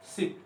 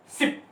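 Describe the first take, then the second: First: शिप with a short, easy i; relaxed "शिप", short i. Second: शिप said as "sheep", long ee. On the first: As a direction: say शिप as in a boat, short vowel. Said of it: "आराम से बोलेंगे या छोटी". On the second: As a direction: stretch the vowel of शिप into ee. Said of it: "बड़ी". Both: Shown as a demonstration.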